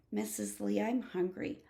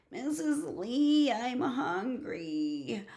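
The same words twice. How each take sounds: First: Said in the usual way. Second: Slow, stretched-out whine; little kid whining for food; whiny child. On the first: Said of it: "grown-up voice". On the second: Acted. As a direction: start high and drag it out pleadingly. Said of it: "slower in a grown-up voice".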